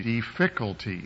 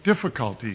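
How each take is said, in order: First: "difficulty" stressed on its second syllable, di-FIC-ulty; misplaced stress. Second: Said in the usual way. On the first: Shown as a demonstration. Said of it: "the emphasis on the wrong syllable". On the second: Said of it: "That was what they were doing".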